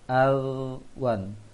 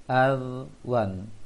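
No difference in how they are said.

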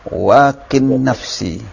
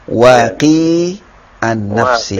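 First: The two words are joined in one flow. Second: The two words are read apart, separately. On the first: "kalau diwasal soalnya tidak ada ya" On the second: "Baca atau dibaca putus dulu supaya ketahuan ini ya"

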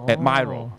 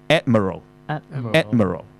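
First: The stress is on the second syllable. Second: The stress is on the first syllable. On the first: The speaker calls it wrong. "就唔好讀admiral" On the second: The speaker calls it right. "佢係讀admiral"

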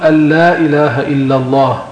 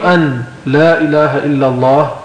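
First: The n merges into a doubled l sound. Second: The n is pronounced separately before the l. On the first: "ينطق الشخص بحرف واحد مشدد وهو الحرف الثاني اللام" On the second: "يعني فك الإدغام، قال أشهد أن لا إله إلا الله بلا إدغام"

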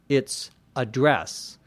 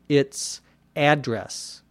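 First: The stress is on the second syllable. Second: The stress is on the first syllable. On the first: It is a verb meaning to write on or speak to. "If it's a verb" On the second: It is a noun naming where someone lives. "If it's a noun"

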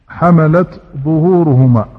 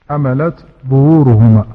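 The two takes are said the same way.

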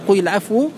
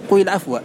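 First: The last word ends with a 'u' vowel. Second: The last word ends with an 'a' vowel. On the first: The answer is the subject of the implied clause. "قرئ بالرفع" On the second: The answer is the object of the implied verb. "وقرئ بالنصب"

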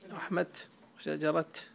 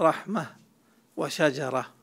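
First: The final sound at the pause is a t. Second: The final sound at the pause is an h. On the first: This is a dialect used by some Arabs. "كيف يقف بالتاء؟" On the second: This is the more eloquent usage. "فالأفصح والوقف بالهاء"

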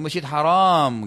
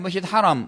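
First: The second vowel of haram is long. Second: The second vowel of haram is short. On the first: The mosque is forbidden. The speaker calls it wrong. "Itu salah" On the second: The mosque is sacred. The speaker calls it right. "Mesti saya pulang dari masjid haram"

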